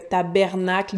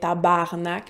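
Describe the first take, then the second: First: The second vowel sounds like 'e'. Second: The second vowel sounds like 'a'.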